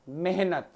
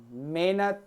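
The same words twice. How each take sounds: First: ਮਿਹਨਤ with a clear h, "meh-nat"; ਮਿਹਨਤ said carefully as "mehnat"; correct pronunciation. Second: ਮਿਹਨਤ said as "menat", the h dropped; ਮਿਹਨਤ with no h sound, as a wrong example; careless pronunciation. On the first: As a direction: sound the h in ਮਿਹਨਤ, falling tone. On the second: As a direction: say ਮਿਹਨਤ the sloppy way, swallowing the h. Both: Shown as a demonstration. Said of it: "ਸ਼ੁੱਧ ਅਸ਼ੁੱਧ ਦੀਆਂ".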